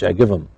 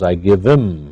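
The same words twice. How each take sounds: First: Him is heavily reduced and run together. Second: Him is reduced and linked to give. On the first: "Or in very reduced speech" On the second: "it becomes I give him, huh, in many times in speaking"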